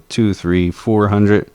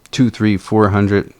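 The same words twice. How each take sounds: The two takes are said the same way.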